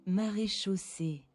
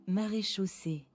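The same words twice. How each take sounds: Both takes have the same delivery.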